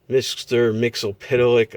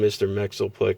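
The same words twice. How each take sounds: First: The name is said in its official pronunciation. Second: The name is said in the cartoon's pronunciation. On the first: "I think is the official official pronunciation" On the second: "I call him Mister Mxyzptlk from the Super Friends cartoon"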